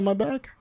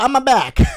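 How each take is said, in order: First: It is said in his normal voice. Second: It is said in a Luigi impression.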